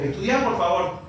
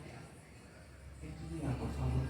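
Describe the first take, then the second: First: It sounds like a firm, demanding order. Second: It sounds like a gentle, pleading request. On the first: It is an order, not a request. "son dos cosas diferentes" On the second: It is a polite request. "es un pedido"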